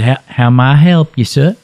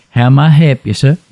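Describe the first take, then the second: First: Said in the usual way. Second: "help" said as "hep", with no L sound; dropped L. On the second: Shown as a demonstration. Quoting the drive-through clerk, "help" said as "hep". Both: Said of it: "they don't use the L".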